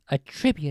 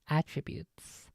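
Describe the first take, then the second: First: The stress is on the second syllable. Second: The stress is on the first syllable. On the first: It is a verb meaning to credit something to someone. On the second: It is a noun meaning qualities.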